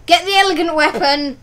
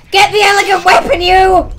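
First: Said in the usual way. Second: Shouted at an opponent; loud shout. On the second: Pretend. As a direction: yell it out. Repeats line, now shouting.

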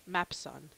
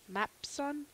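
First: Mapson. falling and sure; settled fall. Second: Mapson? rising like a question; questioning rise. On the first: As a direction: state it: Mapson. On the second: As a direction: ask it: Mapson?. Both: Shown as a demonstration.

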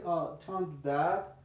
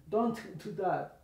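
First: "don't do that" run together, T of DON'T dropped into DO; freer linked words. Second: DON'T with a released T, a catch, then "do that"; separated, the wrong way. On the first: Teacher showing how much freer it gets, words linked. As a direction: glide from DON'T into DO without a break. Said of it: "Entonces es más free". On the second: Teacher showing what not to do, halting after DON'T. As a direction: break the phrase after DON'T. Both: Shown as a demonstration.

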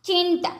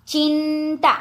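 First: Said in the usual way. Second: ચિંતા high, first syllable held; slow word demonstration. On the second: Shown as a demonstration. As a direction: hold the nasal sound in ચિંતા. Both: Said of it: "જોડણી ઉપર જોજો".

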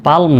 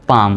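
First: পালম with l voiced before m; mistaken sounded l. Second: পাম with no l before m; long vowel straight into m, পাম; silent l. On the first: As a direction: put an l into it, পালম. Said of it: "পালম নয়". (ল উচ্চারণ করে পালম) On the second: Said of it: "পাম, পালম নয়". (ল নীরব রেখে পাম) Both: Shown as a demonstration.

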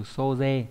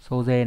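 First: Soze drawn out slowly and evenly; unhurried demo word; slow careful reading. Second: Said in the usual way. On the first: Shown as a demonstration. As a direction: model soze for the class slowly. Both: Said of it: "Ví dụ trong từ soze".

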